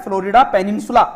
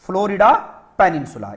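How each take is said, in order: First: Said in the usual way. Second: Two-part teaching emphasis on फ्लोरिडा; split apart. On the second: Shown as a demonstration. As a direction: say फ्लोरिडा, pause, then पेनिनसुला dropping. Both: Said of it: "इसका नाम क्या है?".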